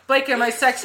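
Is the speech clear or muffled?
clear. It is said in a clear normal voice.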